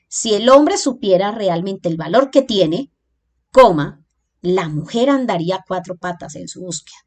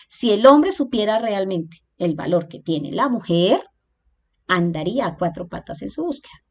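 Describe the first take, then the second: First: The break comes after the word tiene. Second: The break comes after the word mujer.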